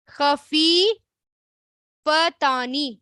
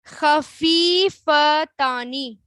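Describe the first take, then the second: First: خفیفتانی drawn out very slowly, syllable by syllable; slower repeat. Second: خفیفتانی said very slowly, each syllable held; slow model word. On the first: Teacher repeats the word for students, very slowly. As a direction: repeat خفیفتانی, stretching every sound. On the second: Teacher showing the class the word, very slowly. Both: Shown as a demonstration. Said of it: "اب پھر دیکھیں،".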